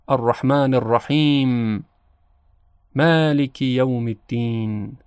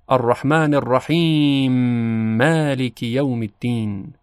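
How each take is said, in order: First: There is a pause between the two verses. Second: The two m sounds merge into one doubled m. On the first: "بین دو آیه وقف کنیم و یک تأملی داشته باشیم" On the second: "ادغام ... میم کلمه مالک مشدد تلفظ میشه"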